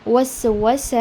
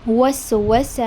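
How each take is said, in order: Both takes have the same delivery.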